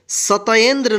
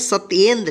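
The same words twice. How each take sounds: First: An extra 'a' vowel follows the t sound. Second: No vowel follows the t sound. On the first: The speaker calls it wrong. "सत्येंद्र नहीं पढ़ेंगे" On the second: The speaker calls it right. "बिना अ के sound का होगा"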